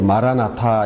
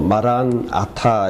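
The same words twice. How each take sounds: First: The two words are run together without a break. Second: The two words are kept apart with a break. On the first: The speaker calls it wrong. "연음이 돼 가지고 마란아타 이렇게 헬라어에서는 발음했는데" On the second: The speaker calls it right. "마란아타 이렇게 발음해야 됩니다"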